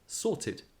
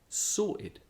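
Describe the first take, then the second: First: The middle t is clearly and strongly released. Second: The middle t becomes a glottal stop. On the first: "he gave a very strong pronunciation of t" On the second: "on the other hand"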